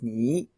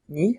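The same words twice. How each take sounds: First: The word is said on a low dipping tone. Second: The word is said on a high tone. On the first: "and that's third tone in Mandarin" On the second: "That that's an upper that's an upper tone"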